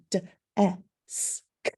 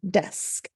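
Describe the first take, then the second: First: "d, e, s, k" as separate letter sounds, duh, eh, sss, k; each sound of "d, e, s, k" alone, pausing between. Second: Said in the usual way. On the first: Shown as a demonstration. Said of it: "the sounds in the word are". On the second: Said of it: "They blend together".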